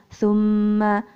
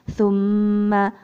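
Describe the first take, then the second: No difference in how they are said.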